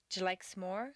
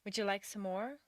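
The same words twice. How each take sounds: First: "Would you like some more" run together, first words shrunk; reduced sounds. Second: Said in the usual way. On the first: Shown as a demonstration. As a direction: swallow the vowel in "some", nearly "sm". Teacher repeats question more reduced.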